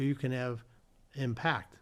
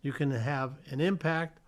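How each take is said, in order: First: "impact" as im-PACT, weight on the second syllable; stress on last syllable. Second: "impact" as IM-pact, the noun; stress on first syllable. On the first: Teacher contrasting noun and verb, last-syllable stress on "impact". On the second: Teacher contrasting noun and verb, first-syllable stress on "impact". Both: Shown as a demonstration. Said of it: "Same with record".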